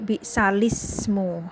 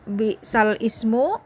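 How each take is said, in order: First: The vowel links directly to lam, no stop. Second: A glottal stop separates lam from ismu.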